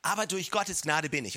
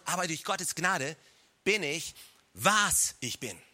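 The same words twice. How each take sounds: First: Said in the usual way. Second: "was" drawn out slow and punched, falling; slow line landing heavily on a long "was"; stress on WAS. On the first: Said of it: "lass mich die Betonung so ein bisschen verschieben". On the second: Shown as a demonstration. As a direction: lean hard on "was", set off by a pause. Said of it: "Betonung auf was".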